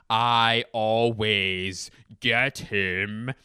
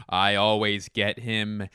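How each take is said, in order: First: Extremely drawn out, every word stretched; milk each word of the boast; put-on voice, hugely elongated words; exaggerated slow gloat. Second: Slow, pleased-with-himself gloat; drawn-out boast. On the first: Same boast repeated, stretched far slower. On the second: Acted. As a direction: stretch it a little, savoring the win. Repeats his boast, then stretches it out.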